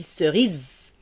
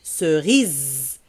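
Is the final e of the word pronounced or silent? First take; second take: silent; silent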